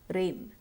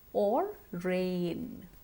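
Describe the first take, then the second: First: The vowel is short without a glide. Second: The vowel is long and glides. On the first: The speaker calls it wrong. "It's too short" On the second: The speaker calls it right. "Remember to stretch the sound"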